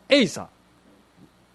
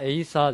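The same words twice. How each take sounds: First: It has the pitch pattern of a pounding call. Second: It has the pitch pattern of the dance name. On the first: It is the shout used while pounding rice cakes. The speaker calls it wrong. "餅つきのエイサー" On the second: It names the Okinawan drum dance. The speaker calls it right. "じゃなくて叩くのはエイサーですね"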